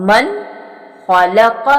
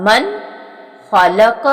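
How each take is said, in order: Both takes have the same delivery.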